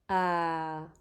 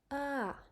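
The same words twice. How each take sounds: First: The pitch is low, like a sigh. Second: The pitch goes up, then falls down. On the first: "the next tone is the low tone" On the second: "The voice goes up and then back down"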